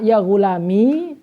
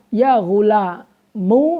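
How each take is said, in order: First: The word ends in a long i vowel. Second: The word ends in a u vowel. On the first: "dengan adanya ya" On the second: "dengan dibaca domah"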